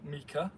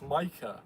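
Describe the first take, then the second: First: The name is read using Welsh letter sounds. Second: The name is said with English letter sounds. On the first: The speaker calls it wrong. "I will pronounce it as you would in Welsh, like phonetically" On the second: The speaker calls it right. "no, it's Micah"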